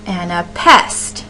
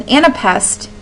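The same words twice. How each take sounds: First: "And a pest" with two light syllables, then stressed PEST; stressed last syllable. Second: Said in the usual way. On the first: Shown as a demonstration. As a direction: land the weight on "pest" in "And a pest". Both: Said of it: "is how that word would sound".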